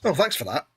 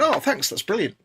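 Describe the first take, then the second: First: Flat thanks that lands like an insult; accidentally sarcastic. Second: Bright, genuinely pleased thanks; mean every word of the thanks; sincerely grateful. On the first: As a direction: say thanks so it sounds like screw you. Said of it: "it came out as if you were saying, "Screw you". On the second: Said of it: "you basically went". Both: Retold or imitated.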